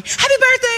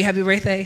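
First: Very high, sing-out birthday wish; chirpy greeting. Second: Said in the usual way. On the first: Retold or imitated. Park staff to birthday button wearer, chirpy. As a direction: imitate an over-cheerful park greeter.

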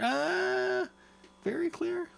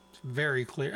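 First: Much higher, hammed-up "very clear"; mock snobby. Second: Said in the usual way. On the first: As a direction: say "very clear" up high like a pompous taster. Mock snobby repeat of clarity.

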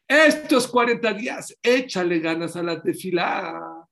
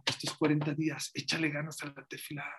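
First: Loud, slow push on "échale ganas"; urging preacher. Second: Quiet repeat. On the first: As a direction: drive "estos cuarenta días" home loud and high. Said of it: "preacher urges congregation". (exhortación fuerte y lenta) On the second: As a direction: say "Échale ganas" softly as a closing thought. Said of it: "quiet repeat of exhortation". (repetición suave y baja) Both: Shown as a demonstration.

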